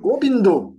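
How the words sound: Bengali pronunciation with b and final o. "si vous allez au Bengale ... vous allez prononcer"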